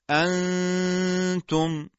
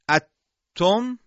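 First: The n is a nasal hum before a single t. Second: The n disappears into a doubled t sound. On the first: The speaker calls it right. "بلکه میگیم انتم" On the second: The speaker calls it wrong. "اتم این ادغامه"

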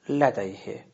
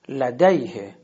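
First: The stress is not on the 'day' syllable. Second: The stress is on the 'day' syllable. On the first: The speaker calls it wrong. "حالت ناصحیح" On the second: The speaker calls it right. "قبل از ساکن میشه"

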